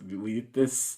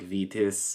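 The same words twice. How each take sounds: First: The name begins with a W sound. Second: The name begins with a V sound. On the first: The speaker calls it right. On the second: The speaker calls it wrong.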